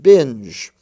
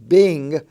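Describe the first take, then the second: First: The word ends in a j sound. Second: The word ends in a hard g sound. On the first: The speaker calls it right. "it's pronounced binge" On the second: The speaker calls it wrong. "it's not pronounced bing"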